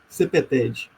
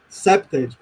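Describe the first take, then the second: First: It is said the Portuguese way, adapted to Portuguese. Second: It is said the English way, in two syllables. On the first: "aí eu aportuguesei a sigla CPTED" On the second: "vocês pronunciam no inglês CEPTED, como deve ser, duas sílabas"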